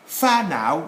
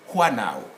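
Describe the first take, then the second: First: FA NOW opening on an F sound; correct pronunciation. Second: HUA NOW opening on a breathed W instead of F; rejected pronunciation. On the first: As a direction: say "fa now" slowly with a clear F. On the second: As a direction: say "hua now" slowly with a hw sound. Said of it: "not, not". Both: Shown as a demonstration.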